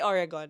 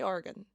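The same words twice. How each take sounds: First: The word does not sound like 'organ'. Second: The word sounds like 'organ'. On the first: The speaker calls it wrong. "I don't say Oregon" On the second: The speaker calls it right. "I say Oregon"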